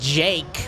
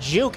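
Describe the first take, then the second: First: The name is said with an 'ay' vowel. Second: The name is said with an 'oo' vowel. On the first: The speaker calls it right. "it's Jake apparently" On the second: The speaker calls it wrong. "it's not Juke"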